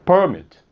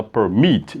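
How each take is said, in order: First: Permit stressed up front, PER-mit, with higher start; wrong stress on first syllable. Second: Permit stressed at the end, per-MIT; correct stress on second syllable. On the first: Teacher showing students what not to say, permit stressed on PER. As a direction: hit the first syllable of permit, let the second drop. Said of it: "porque você não fala". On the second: Teacher showing students the right form, permit stressed on MIT. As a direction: lean on the last syllable of permit, low start. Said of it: "você fala permit". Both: Shown as a demonstration.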